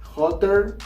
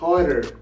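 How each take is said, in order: First: The middle T is a clear t sound. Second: The middle T is a quick r-like tap.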